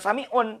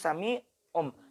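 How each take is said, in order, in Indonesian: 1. Kata ini diakhiri dengan bunyi n. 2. Kata ini diakhiri dengan bunyi m. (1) "Bukan sami'un" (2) "tapi sami'um"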